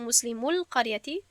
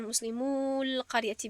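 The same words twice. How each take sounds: First: Said in the usual way. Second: القریتی with long, stretched vowels; drawn-out vowels. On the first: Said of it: "درست هست". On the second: Shown as a demonstration. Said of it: "دراز کردن لازم نیست". (کشیده و دراز خواندن القریتی)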